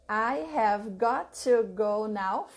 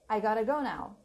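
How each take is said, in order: First: Every word is said fully and separately. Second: Got to is blended into gotta. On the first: "instead of saying I have got to go, I have got to go now, five words" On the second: "you say I gotta go"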